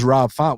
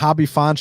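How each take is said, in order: First: The name is said with a plain English pronunciation. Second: The name is said with a Brazilian Portuguese pronunciation.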